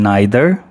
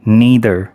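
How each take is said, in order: First: It is said in a British accent. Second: It is said in an American accent.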